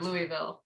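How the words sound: It is pronounced slurred, as if mouth full. "like you've got um, you've got some dip in your mouth ... which is how I would say it naturally"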